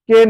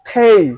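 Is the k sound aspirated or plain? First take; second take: plain; aspirated. First: The k sound is plain, without a puff. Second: The k sound has a strong puff of air. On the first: The speaker calls it wrong. "আসলে এটার সঠিক উচ্চারণ কে নয়" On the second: The speaker calls it right. "এটার সঠিক উচ্চারণ হচ্ছে খেই"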